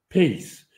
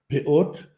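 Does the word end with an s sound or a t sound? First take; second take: s sound; t sound. First: The word ends with an s sound. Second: The word ends with a t sound. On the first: "В ашкеназском произношении говорят «пейс»" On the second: "На современном иврите говорят «пеот»"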